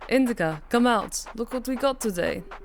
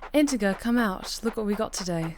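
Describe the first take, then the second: First: It is read in a put-on Russian accent. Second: It is read in the speaker's plain accent.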